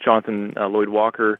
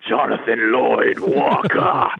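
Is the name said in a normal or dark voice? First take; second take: normal; dark. First: It is said in his normal voice. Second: It is said in a dark, dramatic voice.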